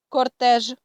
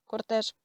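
First: French "кортеж", said out clearly; French pronunciation. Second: Said in the usual way. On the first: Shown as a demonstration. Teacher reads French example "кортеж" to learners, French pronunciation. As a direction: read "кортеж" as French, weight on the last syllable. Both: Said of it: "я буду читати назву літер і приклади".

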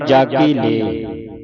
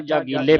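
First: ਜਾਗੀ ਲੈ measured, with an open "lai" ending; correct pronunciation demo. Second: ਜਾਗੀਲੇ run into one word ending in "le"; common misreading. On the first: Shown as a demonstration. Teacher gives students the right pronunciation, ਜਾਗੀ ਲੈ carefully sounded. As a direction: give ਜਾਗੀ ਲੈ a full, open final vowel. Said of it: "ਇਸ ਦਾ ਉਚਾਰਨ ਹੈ". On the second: Retold or imitated. Teacher quotes how some congregations read it, ਜਾਗੀਲੇ as one quick word. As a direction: rush through ਜਾਗੀਲੇ with an "-le" ending. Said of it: "ਕਈ ਸੰਗਤਾਂ ਜਾਗੀਲੇ ਪੜ ਜਾਂਦੀਆਂ".

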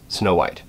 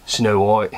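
First: Said in the usual way. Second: Badly faked Australian accent; terrible Australian accent. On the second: Shown as a demonstration. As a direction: have a go at bad Australian. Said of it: "do a terrible Australian accent".

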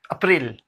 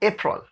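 First: अप्रैल with a clear "ril" ending; wrong April. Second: अप्रैल as "AY-prul", no i sound; April without i. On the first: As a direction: say अप्रैल as "a-pril", with an i sound. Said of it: "No, नहीं". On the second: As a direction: open अप्रैल on "ay", then a soft "prul". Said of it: "आई का sound नहीं इसमें आएगा". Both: Shown as a demonstration.

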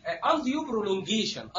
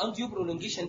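First: "undue prolongation" said very slowly, every syllable stretched; drawn-out term. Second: Said in the usual way. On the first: Shown as a demonstration. Lecturer quoting the anesthetists' complaint, slow and drawn out. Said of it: "دي اتقالت لي كتير". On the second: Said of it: "اتقالت لي كتير".

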